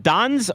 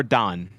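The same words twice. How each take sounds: First: "Don's" with an audible final S; S pronounced. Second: "Don" ending on the N; silent S. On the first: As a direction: sound the S on the end of "Don's". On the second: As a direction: leave the S off "Don". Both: Shown as a demonstration. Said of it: "Is the S silent".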